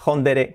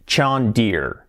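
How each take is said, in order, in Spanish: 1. El nombre se pronuncia con sonidos de estilo español. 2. El nombre se pronuncia con sonidos de estilo inglés. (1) "la pronunciación obviamente no es John Deere, que decimos aquí en España" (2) "es John Deere"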